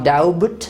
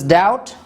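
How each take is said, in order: First: A b sound is pronounced before the t. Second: No b sound is heard before the t. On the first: The speaker calls it wrong. "It is not daubut" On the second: The speaker calls it right. "so this is doubt"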